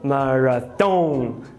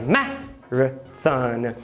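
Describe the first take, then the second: First: The stress falls on a later syllable. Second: The stress falls on the first syllable. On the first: The speaker calls it wrong. "e não marathon" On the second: The speaker calls it right. "A tônica é a primeira"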